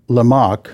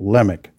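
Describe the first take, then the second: First: The stress is on the second syllable. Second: The stress is on the first syllable. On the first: The speaker calls it wrong. "I'm inclined to call it Lamech" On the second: The speaker calls it right. "It's the emphasis on the first syllable"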